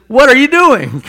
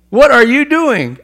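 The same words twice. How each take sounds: First: Loud, high demand from an outraged king; king confronting the unforgiving servant, outraged; angry king's rebuke. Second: Loud, high and slowed, each word hammered; king pressing the servant again, slow and outraged; slowed angry rebuke. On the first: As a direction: bark it at the servant. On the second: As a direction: drag it out in disbelief. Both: Retold or imitated.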